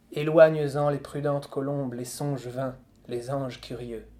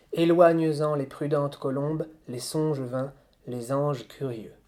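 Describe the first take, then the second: No difference in how they are said.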